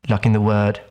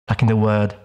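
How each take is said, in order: The two takes are said the same way.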